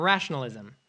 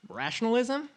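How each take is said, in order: First: Said in the usual way. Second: RATIONALISM as a soft, rising question; puzzled echo. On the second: Acted. Comic queries Zuckerberg's word, puzzled. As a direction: echo "Rationalism" back doubtfully, quieter, pitched up.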